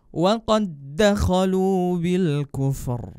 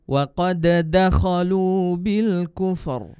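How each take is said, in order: First: The d of qad merges into the next d. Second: The d of qad has a bouncing release. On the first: The speaker calls it right. "Jadi yang benar seperti ini" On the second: The speaker calls it wrong. "bunyi dal sukunnya itu tadi salah karena dipantulkan"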